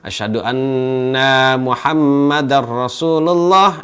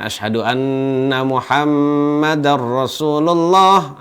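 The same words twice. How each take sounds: First: The vowel after the double n is long. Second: The vowel after the double n is short. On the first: The speaker calls it wrong. "Namun dia dipanjangkan" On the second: The speaker calls it right. "harusnya itu dipendekkan"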